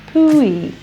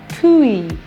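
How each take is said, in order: The two takes are said the same way.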